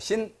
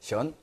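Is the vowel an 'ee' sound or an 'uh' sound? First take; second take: ee; uh. First: The vowel is a clear 'ee' sound. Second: The vowel is a dull 'uh' sound. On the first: This is the Korean reading of the character. "한자 우리 발음을 하고 중국 발음을 해야 돼" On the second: This is the Chinese reading of the character. "신하고 션"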